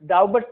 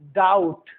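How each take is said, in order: First: The b sound is pronounced in the word. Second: The b sound is left out of the word. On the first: The speaker calls it wrong. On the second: The speaker calls it right.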